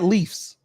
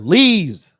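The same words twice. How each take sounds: First: The word ends with an f sound. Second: The word ends with a v sound. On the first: The speaker calls it wrong. "not leaves" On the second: The speaker calls it right. "Change the F to a V and an E"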